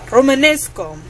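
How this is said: It is said in a put-on Russian accent.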